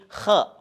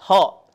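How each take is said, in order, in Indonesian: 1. Diawali dengan bunyi kh yang kasar dari tenggorokan. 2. Diawali dengan bunyi h yang lembut dan berhembus. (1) "tapi kha mengucapkannya" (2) "Tidak tidak ho"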